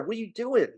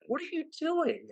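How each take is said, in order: First: Exasperated New Jersey accent, pitched well up. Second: Even higher, softer New Jersey accent, near a squeak; New Jersey accent peak. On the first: Host scolding the team over its hire, New Jersey accent. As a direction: throw up your hands in a New Jersey accent. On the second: Host repeating the complaint in disbelief, high New Jersey accent. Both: Real, not acted. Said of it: "my New Jersey accent coming out there".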